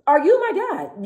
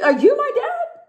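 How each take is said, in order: First: Higher, slowed and drawn-out sarcastic repeat; slow mock indignation. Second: Sharp high incredulous question, pitch shooting up; mock outrage. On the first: Repeating it to the critics, slow high sarcastic jab. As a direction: let the sarcasm sink in slowly. Repeating the retort more slowly. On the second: To people telling her to soften up, squeaky indignant disbelief. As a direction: throw it back at them in disbelief. Snapping back at critics.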